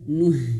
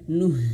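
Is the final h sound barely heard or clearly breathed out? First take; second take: clearly breathed; clearly breathed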